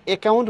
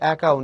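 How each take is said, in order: First: The first vowel sounds like 'e' in 'bed'. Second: The first vowel sounds like 'a' in 'cat'. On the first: The speaker calls it wrong. "তুমি অ্যাকাউন্ট বলতে পারবে না" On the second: The speaker calls it right. "বিদেশি শব্দের অ্যাকসেন্ট অনুযায়ী হবে"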